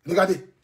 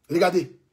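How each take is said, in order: Both takes have the same delivery.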